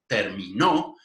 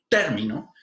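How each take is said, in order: First: The stress falls on the last syllable. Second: The stress falls on the first syllable. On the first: It is a past-tense verb: he or she finished. "si yo pongo la prominencia acentual en la última sílaba" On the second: It is a noun meaning an end or a term. "si yo digo término como palabra esdrújula"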